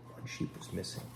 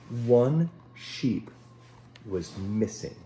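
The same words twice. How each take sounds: First: Breathy whispered echo of the line; hushed dramatic whisper. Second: Said in the usual way. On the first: Acted. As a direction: whisper it like a worried secret.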